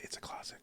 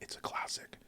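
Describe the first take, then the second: First: The sounds are pronounced in a relaxed, casual way. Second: Every sound is pronounced crisply and precisely. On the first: "for me, I would say" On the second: "She's saying words perfectly"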